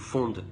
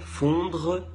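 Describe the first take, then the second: First: The word ends without any R sound. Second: The word ends with a pronounced R sound.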